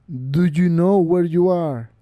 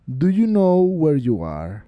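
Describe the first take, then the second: First: Very slow menacing stranger; voice from beyond the grave. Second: Slow, eerie voice from the grave; voice from beyond the grave. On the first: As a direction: drag it out, menacing. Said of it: "El viejo repitió". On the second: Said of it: "les preguntó con voz de ultratumba". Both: A narrator's reading.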